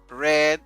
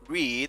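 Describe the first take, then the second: First: It uses the changed past-tense pronunciation. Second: It uses the present-tense pronunciation. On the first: The action happened in the past. "la pronunciación en el pasado simple cambia" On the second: The action happens now or habitually. "En presente decimos read"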